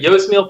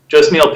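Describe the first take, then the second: First: The name begins with a soft Y sound. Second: The name begins with a hard J sound. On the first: The speaker calls it right. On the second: The speaker calls it wrong.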